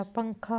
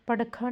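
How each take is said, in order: First: Said in the usual way. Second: पड़खा with a flapped "r" for the nasal; misspelling read out. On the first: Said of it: "होता है". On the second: Shown as a demonstration. Teacher showing a misspelling, nasal replaced. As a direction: say पड़खा as "par-kha", no nasal. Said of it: "नहीं होता".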